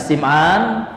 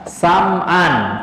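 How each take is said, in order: First: The first syllable has the vowel 'i'. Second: The first syllable has the vowel 'a'. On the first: "bi kasri sin" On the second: "bisa pula dibaca Sam'an"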